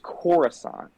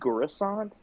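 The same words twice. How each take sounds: First: The word begins with a K sound. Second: The word begins with a hard G sound. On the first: This is how the name should be said. The speaker calls it right. "it's Coruscant, like it's with a C, not with a G" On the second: This imitates how an actor says it. The speaker calls it wrong. "pronounces it like Coruscant, like with a hard G"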